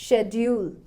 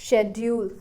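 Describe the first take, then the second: No difference in how they are said.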